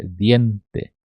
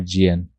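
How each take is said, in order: First: "diente" with a clean hard d, no "dji"; correct hard D. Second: "dien" begun with a Brazilian "dji" sound; wrong soft D. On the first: Teacher correcting learners, hard Spanish d in "diente". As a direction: say "diente" carefully as "di-EN-te". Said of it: "E não é dien". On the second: Teacher warning of learners' mistake, wrong "dji" sound in "dien". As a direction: mispronounce "dien" as "djien". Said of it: "Não confundam aqui esse D com di". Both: Shown as a demonstration.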